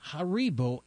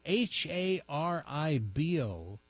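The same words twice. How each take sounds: First: Said in the usual way. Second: "H A R I B O" spelled slowly, each letter separate. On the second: Shown as a demonstration. Spelling the candy brand for the viewers, slow and clear.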